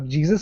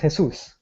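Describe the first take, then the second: First: The word begins with a J sound. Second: The word begins with an H sound.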